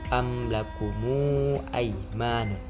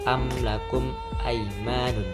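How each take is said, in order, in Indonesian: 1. Vokal u tambahan mengikuti mim. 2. Mim berakhir tanpa vokal tambahan. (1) "yaitu dengan silah atau bersambung" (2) "yaitu tanpa was tanpa silah"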